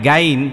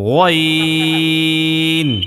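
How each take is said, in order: First: The letter name is said light and thin. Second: The letter name is said heavy and thick. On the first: The speaker calls it wrong. "তাইলে মোটা, এটা চিকন হয়ে যায়।" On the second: The speaker calls it right. "আর গইন বললে মোটা হয়।"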